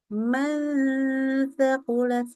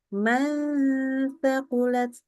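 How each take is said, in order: The two takes are said the same way.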